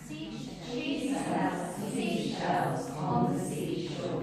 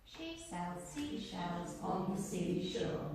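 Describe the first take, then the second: First: Slow, over-shaped tongue twister, each sound pushed out; slow, exaggerated articulation. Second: Said in the usual way. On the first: Shown as a demonstration. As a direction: chew every consonant slowly to wake up the brain. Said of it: "Waking up your brain as well". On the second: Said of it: "just say that, talk to yourself".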